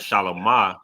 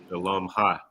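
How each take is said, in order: First: The ending runs smoothly into a soft 'ah'. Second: The ending is a separate, clearly breathed 'ha'. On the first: It means peaceful, or in the service of peace. "Shalamah is like peaceful or a servant of peace" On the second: It means her peace. "you would pronounce that ha differently"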